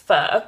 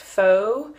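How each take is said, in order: First: The word sounds like British 'fur'. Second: The word does not sound like British 'fur'. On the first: The speaker calls it right. "the right pronunciation is pho" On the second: The speaker calls it wrong. "I've always thought it's pronounced pho"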